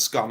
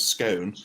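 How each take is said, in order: First: "scone" rhyming with gone; short-O scone. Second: "scone" rhyming with bone; long-O scone. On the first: Brit contrasting class pronunciations, "scone" with short O. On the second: Brit contrasting class pronunciations, "scone" with long O. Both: Shown as a demonstration. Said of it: "who says scone and who says scone".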